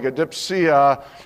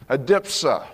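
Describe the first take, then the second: First: The word ends with an extra 'ee' sound before 'a'. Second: The word ends directly in 'sa' without 'ee'. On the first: The speaker calls it wrong. "so it looks more like adipsia" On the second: The speaker calls it right. "that's not the way the pronunciation guide on the internet says it"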